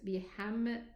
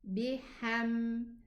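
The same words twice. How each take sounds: First: The final m is cut short with a bounce. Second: The final m is held smoothly without bouncing. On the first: The speaker calls it wrong. "it's going to make qalqala" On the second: The speaker calls it right. "This meme is in between"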